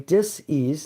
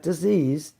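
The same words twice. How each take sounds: First: The word is split into two separate parts. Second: The word is said smoothly as one word. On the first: It means a lack of ease. "I say it that way, dis-ease" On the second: It means an illness. "not disease"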